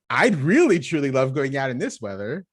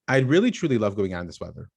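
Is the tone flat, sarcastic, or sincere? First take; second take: sincere; flat. First: It is said in a sincere, enthusiastic tone. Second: It is said flatly, without emotion.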